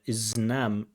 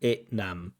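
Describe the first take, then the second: First: The s sound before Nam is kept. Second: The s sound before Nam is dropped. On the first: The speaker calls it right. "where we get the zn next to each other" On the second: The speaker calls it wrong. "so we don't get that S"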